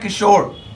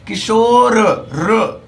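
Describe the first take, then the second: First: The final r is clipped without a vowel. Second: The final r is said fully with a vowel. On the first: "अगर आप ई हटा लेंगे तो हो जाएगा किशोर, यानी कि रा आधे से भी कम पढ़ा गया" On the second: "रा पूरा अगर आपको बोलना है किशोर र ऐसे"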